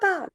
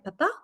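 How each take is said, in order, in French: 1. Ça ressemble à appeler quelqu'un. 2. Ça ressemble à poser une question. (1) "il est en train d'interpeller" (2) "beaucoup plus interrogatif"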